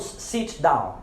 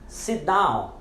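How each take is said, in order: First: "sit down" with T released as "sitch"; sounded T, not used. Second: "sit down" with T held back; silent final T. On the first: Teacher shows learners the wrong "sit down", T sounded. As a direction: let the T pop between "sit" and "down". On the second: Teacher corrects to "sit down" with silent T. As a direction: glide from "sit" into "down", no T release. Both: Shown as a demonstration. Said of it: "Nós não falamos sit down".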